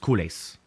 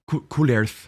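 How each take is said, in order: First: The word is said with an American pronunciation. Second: The word is said with a French pronunciation. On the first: This is how it is commonly said in America. "here in America, the common pronunciation is" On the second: This is how it is said in the original language. "I know it's couleurs"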